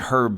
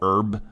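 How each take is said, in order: First: The word begins with an audible h sound. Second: The word begins directly with the vowel sound. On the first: "I'm saying herb because, honestly, I do find it weird that as an American, we don't pronounce the H" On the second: "we don't pronounce the H in herb. In herb. We just go herb"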